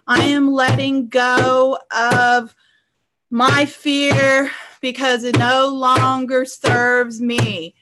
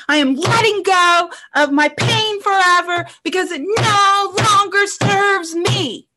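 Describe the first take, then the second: First: Slow, drawn-out half-hearted declaration; mild, plodding mock affirmation; unconvinced client. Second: High, forceful scream, last words stretched; drawn-out cathartic yell; screamed declaration. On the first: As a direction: imitate a client dutifully reciting, unconvincingly. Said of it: "this is what most of my clients do". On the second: Shown as a demonstration. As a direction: scream it out with full conviction. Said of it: "you just, like, scream it".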